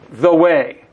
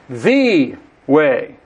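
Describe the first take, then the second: First: The stress is on way. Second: The stress is on the.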